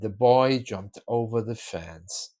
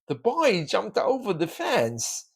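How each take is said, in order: First: The tone sounds sad and subdued. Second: The pitch goes up, sounding happy. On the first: It is a sorrowful story. "if you want to make it a sad story" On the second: It is a cheerful story about sport. "Is it a happy story? ... the intonation going up can make the boy happy"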